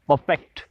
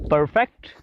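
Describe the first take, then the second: First: The r sound is left silent. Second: The r sound is clearly pronounced. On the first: "अंग्रेज लोग कहते हैं परफेक्ट। परफेक्ट आर को नहीं pronounce करते" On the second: "परफेक्ट हम कहते हैं"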